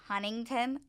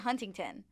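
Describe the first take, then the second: First: The T sounds are swallowed, not clearly released. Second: The T sounds are clearly and crisply released. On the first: "Like when people say like hun- like Huntington" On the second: "I I say Huntington"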